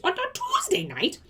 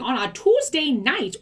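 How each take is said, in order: First: Much higher "On a Tuesday night?" in disbelief; incredulous echo. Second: Said in the usual way. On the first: Real, not acted. Scoffing at the upline's demand, high incredulous echo. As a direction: repeat it like it's absurd.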